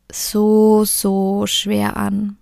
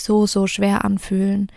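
First: "so schwer" stretched very slowly; drawn-out heaviness. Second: Said in the usual way. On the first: Real, not acted. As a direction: let "so schwer" sink, slow and heavy. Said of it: "repeats to stress heaviness". ("so schwer" ganz langsam gedehnt) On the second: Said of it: "repeats phrase normally".

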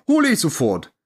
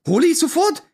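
First: Said in the usual way. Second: "Hole ich sofort" echoed much higher, in disbelief; outraged disbelieving echo of the waiter; incredulous. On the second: Retold or imitated. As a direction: repeat it as if you can't believe your ears.

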